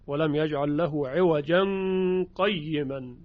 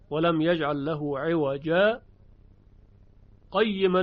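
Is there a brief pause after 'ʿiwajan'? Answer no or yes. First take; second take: no; yes. First: The words run on with no stop after 'ʿiwajan'. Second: The voice stops briefly after 'ʿiwajan' without breathing. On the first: This follows the Shu'ba reading without a sakt. "در روایت شعبه این سکت وجود نداره" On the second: This follows the Hafs reading with a sakt. "در عوجا به میزان دو حرکت صدا رو قطع میکنیم، نفس هم نمیکشیم"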